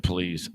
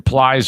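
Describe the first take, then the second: First: The vowel sounds like the one in 'trees'. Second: The vowel sounds like the one in 'flies'. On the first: "Please, because that's an actual word" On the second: "Plies is like you fucking hefty trash bag"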